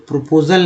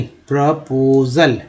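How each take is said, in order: First: "प्रपोजल" with a full O in PRO; mistaken pronunciation. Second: "प्रपोजल" drawn out, opening on pruh; unrounded short first vowel in "प्रपोजल", stretched slowly; corrected pronunciation. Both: Shown as a demonstration. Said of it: "प्रपोजल नहीं".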